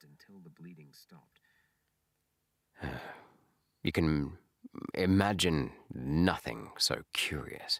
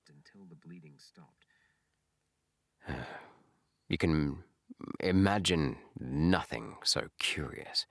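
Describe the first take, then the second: First: A long pause comes before the second sentence. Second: A long pause comes before the second sentence.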